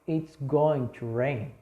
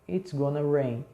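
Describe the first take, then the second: First: The phrase going to is said in full. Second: The phrase going to is reduced to gonna. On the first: It is polite, grammatically careful speech. "uma forma bem polida" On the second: It is casual everyday speech. "Porque é mais rápido"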